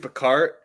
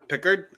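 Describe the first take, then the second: First: The stress falls on the second syllable. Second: The stress falls on the first syllable. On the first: The speaker calls it wrong. "I don't know why I keep saying Picard. I think it's because I think of Star Trek" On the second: The speaker calls it right. "how it's actually pronounced as Pickard"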